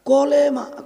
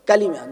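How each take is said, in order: First: The first vowel is o and the second is e. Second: The first vowel is a and the second is i. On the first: The speaker calls it wrong. "কোনোদিন শুনি না আমাদের আলেমরা কলেমা" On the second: The speaker calls it right.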